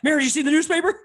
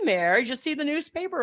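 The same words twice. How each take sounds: First: It is said with urgent, alarmed excitement. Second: It is said in a relaxed, casual way. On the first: Something shocking has happened. "there was excitement and horror in his voice" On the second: It is an ordinary, everyday question. "It wasn't like"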